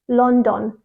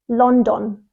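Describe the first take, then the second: The two takes are said the same way.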